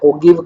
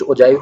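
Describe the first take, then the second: First: The middle consonant is a hard g sound. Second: The middle consonant is a soft j sound. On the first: "तोरण को बोलते हैं ओगिव curve" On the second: "कुछ कुछ ओजाइव भी बोल देते हैं इसको"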